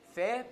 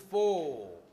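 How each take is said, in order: First: The vowel is reduced to a schwa. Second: The vowel is a full long o. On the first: "it becomes fe" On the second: "which is long o"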